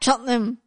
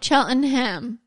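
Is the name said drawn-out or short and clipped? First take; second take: clipped; drawn-out. First: The name is said with short, clipped vowels. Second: The name is said with long, drawn-out vowels. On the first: This is how it is said in the UK. The speaker calls it right. "When you said the right way, I was like, oh, well, I should have been like Cheltenham" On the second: This is how an American would say it. The speaker calls it wrong. "in the U.S., we pronunciate like every, and I know it's very elongated"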